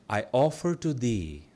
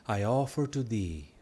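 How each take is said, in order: The two takes are said the same way.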